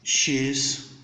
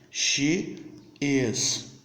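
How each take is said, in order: First: One joined word, without the vowel of is. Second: Two separate words, with the vowel of is. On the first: "Já na forma contraída, ... Você vai ter os dois juntos" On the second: "Você vai falar os dois"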